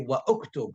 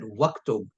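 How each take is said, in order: First: The initial vowel of uktub is pronounced separately. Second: The initial vowel is dropped, words run together. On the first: The speaker calls it wrong. "I did not say wa uktub" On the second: The speaker calls it right. "I said waktub"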